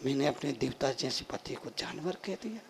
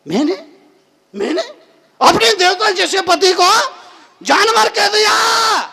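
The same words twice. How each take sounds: First: Low, hushed regret; quiet remorse. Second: High, loud cry of disbelief; appalled outburst. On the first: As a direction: sink into soft self-reproach. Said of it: "उसको बड़ा पश्चाताप हुआ". (धीमा, पछतावे भरा स्वर) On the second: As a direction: build to a shout of self-reproach. Same regret repeated in disbelief. (ऊँची आवाज़ में हैरान आत्मग्लानि) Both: Acted.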